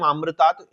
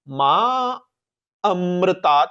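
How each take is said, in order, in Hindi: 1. दोनों शब्द मिलाकर एक शब्द बना दिए गए हैं। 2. दोनों शब्द अलग-अलग शब्दों के रूप में रखे गए हैं। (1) "ये संधि प्रयोग तो सुनाई देगा" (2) "मां अमृतात रखना ही ज्यादा सुरक्षित, ज्यादा बेटर है"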